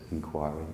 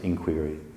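First: The word is given its English pronunciation. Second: The word is given its American pronunciation. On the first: "I think in English people pronounce it inquiry" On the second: "The Americans pronounce it inquiry"

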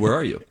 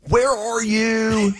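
First: It is said plainly, like normal speech. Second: It is hammed up and over-enunciated.

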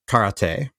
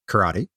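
First: The word is said with Japanese pronunciation. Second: The word is said with American English pronunciation. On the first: "you say karate in Japanese" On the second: "Americans say karate"

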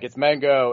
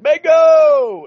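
First: It is said quietly, under the breath. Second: It is said loudly and confidently.

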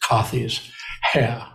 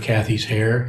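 First: It is said in a British accent. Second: It is said without a British accent. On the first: "it was Kathy's hair. I can't do it very well" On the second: "instead of"

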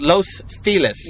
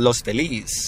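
First: The name is said with English-style pronunciation. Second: The name is said with Spanish pronunciation. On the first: This is how locals name the area. "This is called Los Feliz" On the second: This is how it would be in correct Spanish. "If it was correct Spanish, it would be called Los Feliz"

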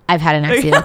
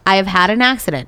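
First: It is said in a put-on voice for Francisco. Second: It is said in a plain, normal voice.

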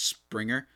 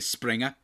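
First: The name is said in a plain accent. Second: The name is said in a put-on accent.

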